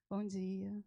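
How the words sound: The greeting sounds flat and low-energy. The speaker is not a morning person and feels unmotivated. "aquela pessoa que não é do dia fala assim"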